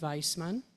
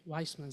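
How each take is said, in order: First: The name is said the original, non-American way. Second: The name is said the American way. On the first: This is how the family said it growing up. "I grew up with the name Weissman" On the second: This is how people in America say it. "in America, the sound is more of a Weissman sound"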